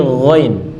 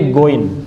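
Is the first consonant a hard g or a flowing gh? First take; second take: flowing gh; hard g. First: It starts with a flowing, rasping gh sound. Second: It starts with a hard, closed g sound. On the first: The speaker calls it right. "tapi ghain" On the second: The speaker calls it wrong. "karena ada g di situ kita nyebutnya goin"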